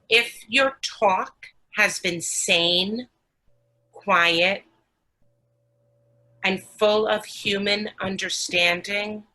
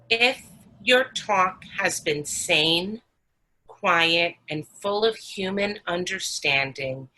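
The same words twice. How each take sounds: First: It is read more slowly. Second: It is read at a normal pace.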